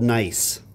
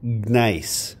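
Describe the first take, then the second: First: The word starts with an N sound, no G. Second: The word starts with a hard G sound. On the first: "it has a silent G in it" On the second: "if I make it not silent"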